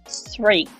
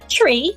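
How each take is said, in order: First: It starts with an unvoiced th sound. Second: It starts with a sound other than th. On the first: The speaker calls it right. "It should be" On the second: The speaker calls it wrong. "So you don't say"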